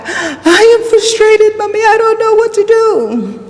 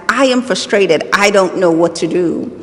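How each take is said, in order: First: Very high imitated child's yell; son shouting back. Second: Said in the usual way. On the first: Son shouts back at his mother, imitated high yell. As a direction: yell it like an overwhelmed child, pitched way up. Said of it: "he shouts back". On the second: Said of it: "heard him shout back to me".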